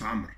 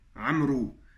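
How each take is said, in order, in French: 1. Le nom se termine sur le son r. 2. Le nom se termine par une voyelle oo ajoutée. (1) "il se prononce Amr" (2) "dans certains pays, on peut entendre Amrou"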